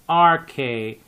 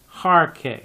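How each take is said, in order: First: It begins with a vowel, no h sound. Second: It begins with a breathy h sound. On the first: The speaker calls it right. "you just say rk" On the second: The speaker calls it wrong. "and not hark"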